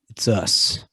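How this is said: It is said flat and deadpan.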